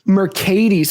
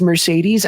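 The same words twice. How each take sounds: First: It sounds like the start of 'Mercadian'. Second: It sounds like the car brand name. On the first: The speaker calls it right. "It's not like the car" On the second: The speaker calls it wrong. "I said it like the car"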